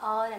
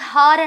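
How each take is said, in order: First: The word begins with a vowel sound. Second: The word begins with an h sound. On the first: This is how the word is spoken. "పలికేటప్పుడు ఆర్ అని పలుకుతాం" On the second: This is how the word is spelled. "రాసేటప్పుడు హార్ అని రాస్తాం"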